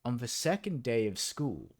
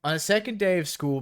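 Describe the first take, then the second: First: Said in the usual way. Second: Faster, louder, higher dramatic opening; dramatic reread. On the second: Shown as a demonstration. Rereading the story opening for the group, hammed-up and dramatic. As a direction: launch into it like a big dramatic reveal. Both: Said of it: "buckle the fuck up".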